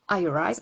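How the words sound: The name is said with an English accent. The speaker calls it right. "On reprend son accent anglais"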